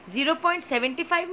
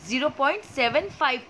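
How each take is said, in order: First: zero point सेवेंटी फ़ाइव, with सेवेंटी फ़ाइव as one number, said fast; wrong reading. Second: zero point सेवन फ़ाइव, with सेवन and फ़ाइव as separate digits; right reading. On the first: Teacher quickly showing the wrong reading, सेवेंटी फ़ाइव as one number. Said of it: "नहीं पढ़ेंगे". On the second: Teacher showing students the correct digit-by-digit reading, सेवन फ़ाइव. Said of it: "पढ़ेंगे". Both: Shown as a demonstration.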